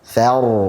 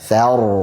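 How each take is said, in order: The two takes are said the same way.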